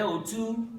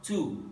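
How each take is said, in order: First: O two pitched high, climbing; tone going up. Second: Two dropped in pitch, said slowly; tone going down. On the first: Teacher contrasting two Yoruba words, O two going up. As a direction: lift the tone through O two. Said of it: "goes up". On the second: Teacher contrasting two Yoruba words, two going down. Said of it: "goes down". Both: Shown as a demonstration.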